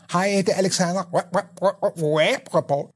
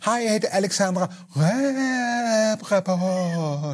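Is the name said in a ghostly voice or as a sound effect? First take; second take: sound effect; ghostly. First: The name is said like a sound effect. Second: The name is said in a spooky ghost voice.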